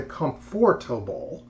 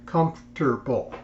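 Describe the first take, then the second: First: "comfortable" with all four syllables, "com-for-ta-ble"; "comfortable" said out in full; full pronunciation. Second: "comfortable" squeezed into three syllables, "comf-ter-ble"; "comfortable" with the middle syllable dropped; clipped mispronunciation. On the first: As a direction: give "comfortable" every syllable. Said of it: "They leave out". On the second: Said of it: "They leave out the comfortable". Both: Shown as a demonstration.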